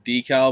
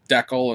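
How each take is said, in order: First: The word is said the usual home way. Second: The word is said the overseas way. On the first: "instead of decal" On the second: "the way people overseas pronounce it as decal"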